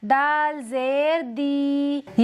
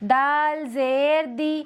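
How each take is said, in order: First: The final vowel is stretched out long. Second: The final vowel is said short and quick. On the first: The speaker calls it wrong. "इस तरह से खींचना गलत है" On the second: The speaker calls it right. "दाल को जल्दी पढ़ेंगे"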